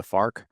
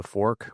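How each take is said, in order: First: "fark" with an ah vowel in place of or; Midwestern "fark". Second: Said in the usual way. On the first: Shown as a demonstration. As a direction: say "fark" to rhyme with park, Saint Louis style. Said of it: "we eat with a fark". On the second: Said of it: "We don't eat with a fork".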